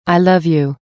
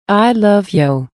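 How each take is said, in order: First: Said in the usual way. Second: Slower, lingering repeat; drawn-out echo. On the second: A narrator's reading. The fish darting, answering the son, slow tender echo. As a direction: let the second one linger tenderly.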